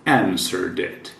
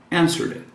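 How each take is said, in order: First: "Answered it" run together as one word; "Answered it" linked smoothly. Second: "Answered it" blended fast as "Answeredit"; quick linked "Answered it"; linked quickly. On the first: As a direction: join "Answered" straight into "it". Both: Shown as a demonstration. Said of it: "Emenda aqui com it".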